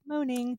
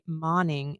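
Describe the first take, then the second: First: The surname sounds like the word 'moaning'. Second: The surname does not sound like 'moaning'. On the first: The speaker calls it wrong. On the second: The speaker calls it right.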